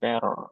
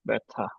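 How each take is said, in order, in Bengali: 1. t-এর উচ্চারণ d-এর মতো, r উচ্চারিত হচ্ছে। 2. t স্পষ্ট, শেষের r উচ্চারিত হয়নি। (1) "আর এটা উচ্চারণটা আমেরিকানে কিছুটা ড এর মতো হবে" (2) "আর ব্রিটিশরা বলবে বে- ব্যথা"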